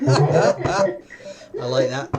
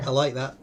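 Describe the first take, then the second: First: Stretched out slowly through laughter; real delighted laugh, words drawn out. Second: Said in the usual way. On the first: Real, not acted. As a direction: say it while still laughing, louder. Laughing at the game.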